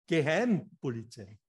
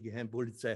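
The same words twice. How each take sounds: First: It is split, with a break before the last part. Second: It is said smoothly as one compound word. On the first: It tells the police to go home. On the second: It names the secret police.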